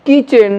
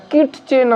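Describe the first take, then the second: First: "কিচেন" with no t before ch; silent t. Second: "কিটচেন" with the t sounded; "কিটচেন" said as "kit-chen"; wrong pronunciation. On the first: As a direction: say "কিচেন" high, t dropped. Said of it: "ট উচ্চারণ হবে না". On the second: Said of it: "কিটচেন আমরা বলবো না". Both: Shown as a demonstration.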